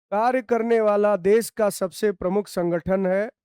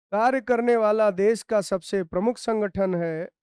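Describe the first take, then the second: The two takes are said the same way.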